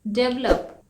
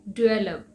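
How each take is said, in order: First: डेवलप with a hard "dev" and the v lost; डेवलप said as the common Indian mistake; डेवलप with a flat "dev" start; wrong develop. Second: डेवलप as "di-VEL-up" with a clear v; डेवलप with the v sound brought in; डेवलप said "dih-vel-up"; correct develop. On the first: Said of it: "लेकिन ये डेवलप नहीं है". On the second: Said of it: "आपको थोड़ा सा व की sound लानी है". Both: Shown as a demonstration.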